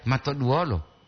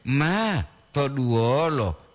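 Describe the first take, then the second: First: Said in the usual way. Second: "ma" held long, then "to duolo"; slow, separated "maa... to duolo"; clarified intonation. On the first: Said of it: "Olan to masatya". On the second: Shown as a demonstration. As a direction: stretch "ma" and pause before "to duolo". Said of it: "Makanya intonasi dia itu diperjelas".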